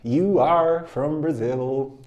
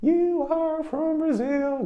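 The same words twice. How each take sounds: First: Slow, evenly paced repetition; slow drill. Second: Much higher, slow student-voice echo; high slow drill. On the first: Teacher repeats the line slowly at normal pitch. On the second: Teacher drills the line in a high slow voice. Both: Shown as a demonstration. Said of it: "Repeat after me".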